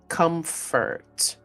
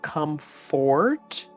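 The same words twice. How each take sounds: First: The second syllable has a weak, reduced vowel. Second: The second syllable has a full vowel. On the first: The speaker calls it right. "when we say it quickly, it's more like an E" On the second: The speaker calls it wrong. "I know it looks like comfort"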